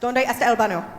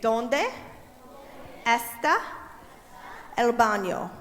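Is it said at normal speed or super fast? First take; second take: super fast; normal speed. First: It is said super fast. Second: It is said at a normal speed.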